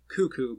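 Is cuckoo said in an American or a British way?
American. The word is said in an American way. This is how the speaker would normally say it. "I would say cuckoo"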